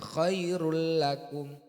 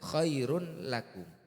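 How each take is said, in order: First: The n merges into a doubled l sound. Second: The n is pronounced clearly before the l. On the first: The speaker calls it right. "tapi dibaca" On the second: The speaker calls it wrong. "Jangan dibaca"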